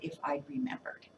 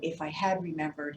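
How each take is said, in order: First: The word 'had' is contracted onto 'I'. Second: The word 'had' is said in full.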